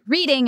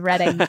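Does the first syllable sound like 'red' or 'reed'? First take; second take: reed; red. First: The first vowel is long, like 'reed'. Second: The first vowel is short, like 'red'. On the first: The speaker calls it wrong. "I pronounced it reading" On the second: The speaker calls it right. "instead of Reading"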